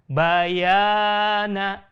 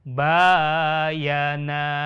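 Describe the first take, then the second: First: The vowel of the second syllable is long. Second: The vowel of the third syllable is long. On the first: "Huruf yang kedua"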